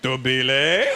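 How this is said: The name is said as a question.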